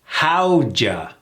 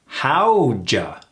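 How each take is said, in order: First: The words blend into a short two-syllable reduction. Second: The same.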